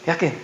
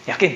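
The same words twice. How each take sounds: The two takes are said the same way.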